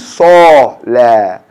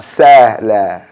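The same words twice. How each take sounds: First: The s is a heavy emphatic sound. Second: The s is a plain light sound. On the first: The speaker calls it right. "that is the sod in the word salah" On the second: The speaker calls it wrong. "not salah"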